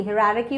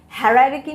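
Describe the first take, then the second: First: "हायरार्की" said as "hi-rarki"; short, light first vowel in "हायरार्की", as corrected; correct pronunciation. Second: "हायरार्की" said as the mistaken "ha-rararki"; wrong pronunciation. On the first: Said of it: "हायरार्की होती है". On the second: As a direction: open first vowel in "हायरार्की", as the mistake. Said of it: "हायरार्की नहीं होती". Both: Shown as a demonstration.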